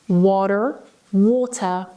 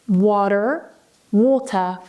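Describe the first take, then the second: No difference in how they are said.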